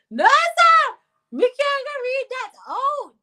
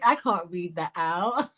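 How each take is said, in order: First: Very high, loud squealed refusal; scandalised shriek. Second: Said in the usual way. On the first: Real, not acted. Host refuses to read a rude comment, scandalised shriek. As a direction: squeal it out, stretching the words.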